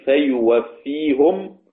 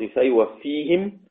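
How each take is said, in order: First: Slow فيوفيهم ending -hum; Ruways reading. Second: Slow فيوفيهم ending -him; Hafs reading. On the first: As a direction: recite فيوفيهم with damma on the ha. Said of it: "رويس". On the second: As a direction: recite فيوفيهم with kasra. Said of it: "حفص". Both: Shown as a demonstration.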